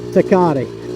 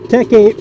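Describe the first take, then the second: First: It is said in three syllables, like 'ta-ka-ti'. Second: It is said in two syllables, like 'tech eight'. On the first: This is how other people say it. "so I think it's Takati" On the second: This is how the speaker long said it. "I pronounced it Tech eight for most of my life"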